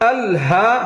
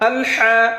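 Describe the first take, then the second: First: The h is breathy with an open throat. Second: The h is pressed tight in the throat. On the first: The speaker calls it right. "হা হরফটা গলা ছেড়ে বলতে হবে" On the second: The speaker calls it wrong. "এমন না"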